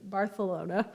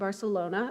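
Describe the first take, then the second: First: The c is said with a lisped th sound. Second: The c is said with a plain s sound.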